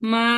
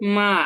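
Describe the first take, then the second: First: The pitch stays high and level. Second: The pitch dips down then rises. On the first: "প্রথমটা হবে কি" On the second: "third tone"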